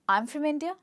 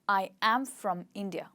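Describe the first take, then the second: First: The first two words join into one syllable. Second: Every word is said fully and separately. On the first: "with the contraction I'm" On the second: "speaking every word separately"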